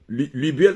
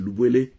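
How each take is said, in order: First: The first vowel is the French 'u' sound. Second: The first vowel is an 'ou' sound. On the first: The speaker calls it wrong. "c'est pas Lubiel" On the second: The speaker calls it right. "c'est Lubwele"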